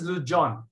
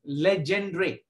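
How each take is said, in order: First: It is said as 'Lujon', ending in 'on'. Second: It is read as spelled, ending in 'dre'. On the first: The speaker calls it right. "it is pronounced as Lujon" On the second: The speaker calls it wrong. "it is not pronounced like this"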